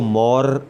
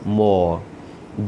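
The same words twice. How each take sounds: First: The r sound is clearly pronounced. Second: The r sound is dropped or very soft. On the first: The speaker calls it wrong. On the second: The speaker calls it right.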